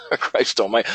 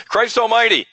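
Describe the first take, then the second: First: Said in the usual way. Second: "Christ almighty" blurted out higher and louder, a hammed-up curse; half-joking loud outburst, "almighty" hit hard and high; mock exclamation. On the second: Mocking the swearing complaint.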